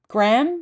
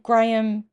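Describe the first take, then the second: First: It is said as one syllable without an H. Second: It is said as two syllables with an H. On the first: "I've no idea why you don't pronounce an H" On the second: "people who are called Graham"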